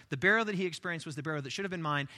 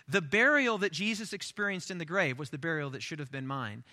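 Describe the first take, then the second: First: Brisk recited declaration; fast, fluent restatement; quick recap. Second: Measured, deliberate declaration; unhurried, weighty testimony; solemn declaration. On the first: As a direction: run through the confession quickly. Same declaration recapped at speed. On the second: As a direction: spell out the confession phrase by phrase. Baptismal declaration, first solemn take. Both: Acted.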